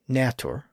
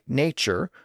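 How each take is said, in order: First: The middle consonant is a plain t. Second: The middle consonant is a ch sound.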